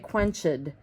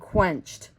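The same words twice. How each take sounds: First: The ending is said as a separate second syllable. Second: The word is said as a single syllable. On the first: The speaker calls it wrong. "we don't say quenched" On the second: The speaker calls it right. "We say doused and quenched"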